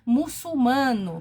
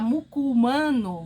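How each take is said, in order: First: The second consonant is an S sound. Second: The second consonant is a hard K sound. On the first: The speaker calls it right. "você coloca cedilha para mostrar que aquele C ali tem som" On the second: The speaker calls it wrong. "para não ficar muculmano"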